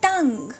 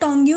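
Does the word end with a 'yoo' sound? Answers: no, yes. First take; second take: no; yes. First: The word ends cleanly without a 'yoo' sound. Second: The word ends with an added 'yoo' sound. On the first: The speaker calls it right. "It's टंग" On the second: The speaker calls it wrong. "इसको आपने टोंग्यू नहीं पढ़ना"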